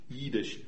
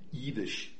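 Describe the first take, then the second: First: It has a long i and ends in sh. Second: The same.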